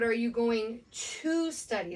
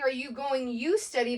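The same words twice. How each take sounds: First: Slower, with "to" drawn out; stress on TO. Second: "you" put in place of "to", stressed; wrong example with YOU. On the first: Teacher correcting the example for students, stress on "to". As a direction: lean hard on "to" before "study". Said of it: "we're not saying ... but". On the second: Teacher showing students what we're not saying, stress on "you". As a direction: stress the misplaced "you" before "study". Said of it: "we're not saying". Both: Shown as a demonstration.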